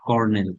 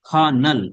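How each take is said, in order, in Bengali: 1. এটি 'cornel' এর মতো বলা হয়, 'or' এ r-স্বরধ্বনি সহ। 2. এটি 'kernel' এর মতো বলা হয়, 'kuh' দিয়ে শুরু। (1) "আমরা কর্নেল শব্দটা ইউজ করি" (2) "উচ্চারণ খ, খা, খানাল"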